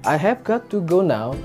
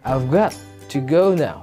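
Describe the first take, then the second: First: Every word is said fully and separately. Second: 'I have' is shortened to 'I've'.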